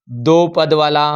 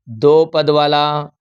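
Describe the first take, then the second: First: Said in the usual way. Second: दो पद वाला said slowly with दो leaned on; slow down and press on दो; slow stress on दो. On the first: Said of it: "repeats for emphasis". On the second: Shown as a demonstration. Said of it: "इस concept को ध्यान से". (दो पर ज़ोर देकर धीरे-धीरे)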